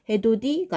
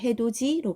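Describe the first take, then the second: First: The middle consonant sounds like t. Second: The middle consonant sounds like ch. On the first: The speaker calls it wrong. "해돋이가 아니라" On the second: The speaker calls it right. "해돋이로 발음한다는 거"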